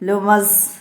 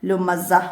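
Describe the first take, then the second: First: The word is cut off on the s. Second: The word ends on a soft h sound. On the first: The speaker calls it wrong. "ലുമസ് എന്ന് പറഞ്ഞ് വഖഫ് ചെയ്യാതെ" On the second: The speaker calls it right. "ഹ ആയിട്ട്"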